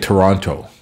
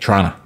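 First: Every letter is pronounced, including both T sounds. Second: It is squeezed to two syllables ending in 'a'. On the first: "People from out of town tend to pronounce all the letters" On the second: "Some people say Trana with an A"

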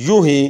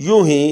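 No difference in how they are said.

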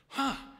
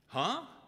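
First: It sounds pleased and impressed. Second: It sounds puzzled, like a question.

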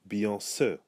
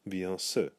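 The two takes are said the same way.

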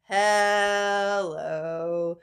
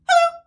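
First: It is said slowly. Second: It is said fast.

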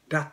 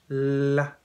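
First: The L consonant is cut very short. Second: The L consonant is held for a moment. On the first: The speaker calls it wrong. "日本語みたいにラッと言う、ラッと言わないですね" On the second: The speaker calls it right. "ちょっと時間がありますね。子音に時間があるんです。"

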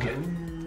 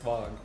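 First: It is said in an exaggerated, dramatic way. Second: It is said plainly, matter-of-fact.

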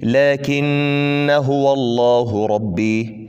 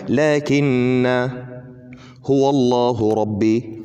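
First: The first word ends in a short vowel. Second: The first word ends in a long vowel. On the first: The reading continues without stopping. "هتقرأها كده، ... مفيش الف خالص، ده في الوصل" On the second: The reader stops on the word. "لو هتقف عليها ... في الوقف"

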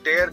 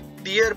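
First: It rhymes with 'hair'. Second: It rhymes with 'here'. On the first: It means to rip something. "T E A R का दूसरा उच्चारण जब टेयर करते हैं तो इसका अर्थ होता है कोई चीज फाड़ना" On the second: It means a drop from the eye. "जब आप इसे टीयर पढ़ते हैं तो आंखों से जो गिरने वाला द्रव पदार्थ"

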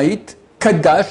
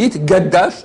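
First: The consonant after 'yit' is a voiceless K. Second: The consonant after 'yit' is a voiced G. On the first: The speaker calls it right. "un hit kadash avec un k ou avec un q" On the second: The speaker calls it wrong. "et hit gadash avec un g, c'est faux"

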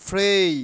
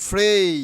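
The two takes are said the same way.

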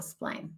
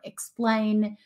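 First: The unstressed first syllable is dropped or devoiced. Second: The unstressed first syllable is said in full. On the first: "Or explain. There you go" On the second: "words such as because or explain are often pronounced as"

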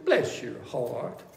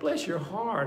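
First: It sounds dismissive, without real feeling. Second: It sounds warm, with real empathy.

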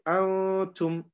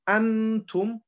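First: The n is hidden as a nasal sound. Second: The n is pronounced fully and clearly. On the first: The speaker calls it right. "We hide the noon and we take the sound" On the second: The speaker calls it wrong. "instead of saying antum"

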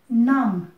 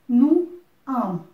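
First: The words merge into one syllable. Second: The two words are said separately. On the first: "das lässt sich sozusagen zusammenziehen mit nam" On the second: "Das heißt, nu am"

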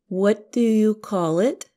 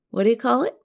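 First: Each word is said slowly and clearly. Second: The words are said quickly, run together.

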